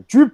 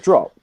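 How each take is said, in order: First: The word is pronounced with an odd vowel. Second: The word is pronounced in the normal way. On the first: The speaker calls it wrong. "he definitely did some weird pronunciation" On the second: The speaker calls it right. "he'd go drop"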